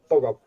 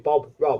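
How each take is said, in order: First: The two words run together without a pause. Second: There is a pause between the two words. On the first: The speaker calls it right. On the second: The speaker calls it wrong. "you can't pause even between like you can't be"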